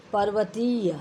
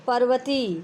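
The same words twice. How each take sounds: First: पर्वतीय with a final y glide; full correct form. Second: पर्वती stopping on "tee"; dropped ending. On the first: Teacher restoring lost letters, पर्वतीय with y. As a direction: say पर्वतीय as "parvatee-ya". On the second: Teacher showing lost letters, पर्वती without y. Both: Shown as a demonstration. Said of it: "अक्षर लोप संबंधी शुद्धियाँ".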